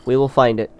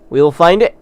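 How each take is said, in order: First: Said in the usual way. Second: "We will find it" said higher and louder, rising at the end; rally the viewers with a determined pledge; rallying cry. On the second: Shown as a demonstration.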